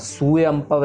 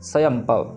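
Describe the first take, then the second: First: The word begins with a separate 'su' syllable. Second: The word begins with a quick 'sva' cluster. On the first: The speaker calls it wrong. "सुयंपव नहीं करना" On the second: The speaker calls it right. "जल्दी जल्दी"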